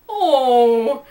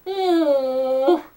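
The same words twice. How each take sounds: First: Mouthful oh. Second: Muffled oh. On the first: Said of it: "muffled sound of having a mouthful". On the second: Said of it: "sounded more like". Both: A narrator's reading.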